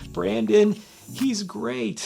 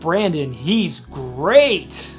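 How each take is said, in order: First: It sounds nervous, shaky and unconfident. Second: It sounds warm and sincerely approving. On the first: The speaker seems afraid of him. "I sound like I'm afraid of him" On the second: The speaker truly likes and admires him. "it comes with a tone of Brandon is he's great. We like him"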